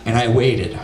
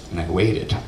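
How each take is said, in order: First: Said in the usual way. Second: Lower, softer repeat. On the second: Acted. Storyteller stretching the wait, low deadpan repeat. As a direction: drop it low and soft, deadpan.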